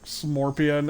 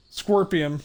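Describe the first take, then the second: First: "Smorpion" with an m after the s; "Smorpion" in place of scorpion; playful mispronunciation. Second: Said in the usual way. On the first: Shown as a demonstration. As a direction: say "Smorpion", swapping the k sound for m. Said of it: "when I say, like, Smorpion". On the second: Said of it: "but then I just go".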